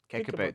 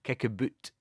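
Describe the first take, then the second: First: The second vowel is the standard "out" sound. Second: The second vowel is the Scottish "oo" sound.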